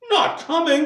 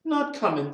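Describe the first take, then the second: First: High, loud incredulous echo; dismayed disbelief. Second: Higher-pitched short answer at normal volume; matter-of-fact reply. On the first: Bob's high spirits suddenly drop, dismayed disbelief. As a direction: repeat it as a shocked question. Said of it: "with a sudden declension in his high spirits". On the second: Wife answers Bob about Martha, plain higher reply. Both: A narrator's reading.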